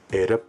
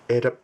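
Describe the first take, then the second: First: A low tone is followed by a falling tone. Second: Both syllables are said on a high tone. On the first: It means hide something. "If you say it low and falling" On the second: It means twenty. "Eda high, high. Eda means twenty"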